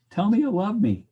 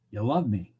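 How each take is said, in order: First: Higher, louder needy plea; mock pleading. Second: Said in the usual way. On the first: Lover begging to hear I love you, mock plea. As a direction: beg for the words, hammed up.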